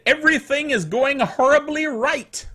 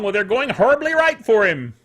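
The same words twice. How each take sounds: First: Said in the usual way. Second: Right punched, set against wrong; stress on right. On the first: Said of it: "Palmer Luckey on Friday said". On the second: Shown as a demonstration. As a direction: lean hard on the word right, falling. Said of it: "talk about things going horribly wrong".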